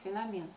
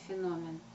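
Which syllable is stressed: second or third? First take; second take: third; second. First: The stress is on the third syllable. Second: The stress is on the second syllable. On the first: The speaker calls it wrong. "я услышала его с ударением на третий слог" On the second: The speaker calls it right. "Но все-таки нужно говорить феномен"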